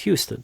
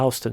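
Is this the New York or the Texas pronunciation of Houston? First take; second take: Texas; New York. First: It is said the Texas way. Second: It is said the New York City way. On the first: It names the largest city in Texas. "But if you're in Texas, it's Houston" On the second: It names the street in New York City. "if you're in New York City, it's a regional dialect. It's a Houston Street"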